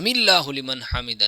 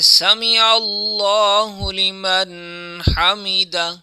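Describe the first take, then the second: First: The first two words run together as samillahu. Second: The first two words stay apart as sami Allahu. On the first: The speaker calls it wrong. "लोग जो करते हैं" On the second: The speaker calls it right. "बल्कि"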